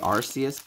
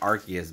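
First: The c is said as a soft s. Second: The c is said as a hard k. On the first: "I think it's supposed to be Arceus" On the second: "I like Arceus better, right? It's just the hard K sounds better to me"

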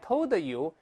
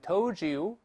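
First: The d and y are said separately. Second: The d and y blend into one sound. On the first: The speaker calls it wrong. "不能都是I told you" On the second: The speaker calls it right. "因为the 碰在ye 放在一块发，这是told you"

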